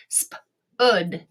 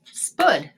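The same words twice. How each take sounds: First: "Spud" split into sp and ud; sounded out. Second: Said in the usual way. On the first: Shown as a demonstration. Teacher trying another vowel, "Spud" in pieces. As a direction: tap out "Spud" with a separate uh sound. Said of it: "let's try the uh sound". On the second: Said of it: "and say it".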